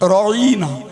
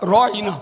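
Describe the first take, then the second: First: The word is said in a twisted form. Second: The word is said in its normal form. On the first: O our shepherd. "ওই শব্দটার বিকৃতি করে শব্দটা বলল এইভাবে" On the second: Please look at us. "সাহাবারা ব্যবহার করতেন"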